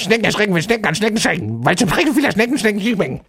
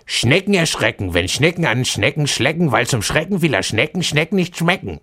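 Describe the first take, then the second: First: It is said at top speed. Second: It is said fast.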